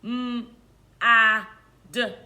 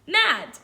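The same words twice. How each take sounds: First: "M, A, D" as separate letter sounds with pauses; robot sounding-out. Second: Said in the usual way. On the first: Shown as a demonstration. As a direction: say "M, A, D" one isolated sound at a time. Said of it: "say it like a robot". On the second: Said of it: "I choose the word mad".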